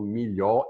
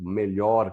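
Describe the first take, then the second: First: "milhó" with the final R dropped; Catalan pronunciation. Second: "melhor" said the Portuguese way, with an E; Portuguese pronunciation. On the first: Explaining how Catalans say it, Catalan pronunciation. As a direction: say "milhó" Catalan-style, ending on stressed O. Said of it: "eles falam milhó e tem o R". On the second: Teacher citing the Portuguese word, plain Portuguese pronunciation. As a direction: say "melhor" with a clear first E. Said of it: "que a gente fala melhor". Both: Shown as a demonstration.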